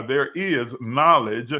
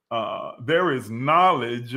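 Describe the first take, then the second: First: Is said slowly and firmly, knowledge rising; stress on is. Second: Said in the usual way. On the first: Acted. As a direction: correct are to is, stressing is. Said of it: "not are".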